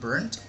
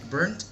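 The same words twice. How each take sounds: First: The word ends in a t sound. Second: The word ends in a d sound.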